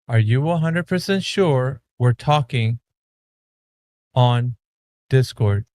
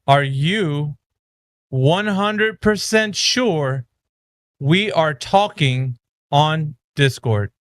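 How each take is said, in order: First: The question is said at a normal pace. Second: The question is said more slowly.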